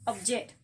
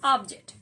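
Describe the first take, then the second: First: Ob-JECT, weight on the second syllable; stress on second syllable. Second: OB-ject, punched loud on the first syllable; stress on first syllable. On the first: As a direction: lean on "ject" in object. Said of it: "the stress is in the second syllable". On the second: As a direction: hit "ob" hard in object. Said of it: "in the noun the stress is in the first syllable". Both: Shown as a demonstration.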